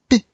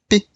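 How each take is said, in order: Both takes have the same delivery.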